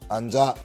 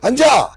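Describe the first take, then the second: First: It is said firmly and calmly. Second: It is said loudly and angrily.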